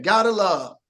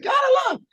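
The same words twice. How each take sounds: First: Said in the usual way. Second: Much higher shouted imitation of a little girl; mock squeal of the girl; imitated scream. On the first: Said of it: "she said". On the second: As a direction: belt it out like the tiny fan with the big voice. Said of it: "had this big voice".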